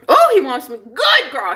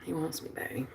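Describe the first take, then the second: First: Higher, louder gush; excited outburst. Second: Very soft, low murmur; hushed gloating. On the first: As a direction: burst out with sudden delight. Bursts out with the same words. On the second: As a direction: murmur it privately to yourself. Murmurs it to herself. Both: Real, not acted.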